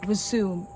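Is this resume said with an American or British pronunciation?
American. It is said with an American pronunciation. "is the American pronunciation"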